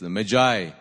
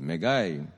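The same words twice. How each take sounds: First: The g is soft, sounding like a j. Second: The g is hard, ending like 'guy'. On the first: "the right way of saying this is Magi. You pronounce the G as a J" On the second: "G-I could be guy, so they say Magi"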